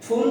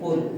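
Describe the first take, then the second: First: It starts with an f sound and much air. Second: It starts with closed lips and little air. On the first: It means a foolish person. The speaker calls it wrong. "ফুল যদি হয় সেটা হয়ে যাবে ইংরেজি এফ double L" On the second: It means a flower. The speaker calls it right. "সেটা যদি বলতে চাই তাহলে আমাকে বলতে হবে ফুল। বাতাসটা বের হবে না"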